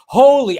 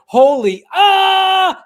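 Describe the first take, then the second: First: Loud, high retold cry; exclaimed movie quote. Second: Loud exclamation breaking into a high yell; yell-covered censored quote. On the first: Host quoting Marty seeing the Libyans, loud exclamation. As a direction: call it out like Marty's startled yell. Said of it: "and he goes". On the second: Retold or imitated. Host mimicking the censored TV edit, loud covering yell. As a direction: drown the swear word in a mock scream. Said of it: "covered it with his yell".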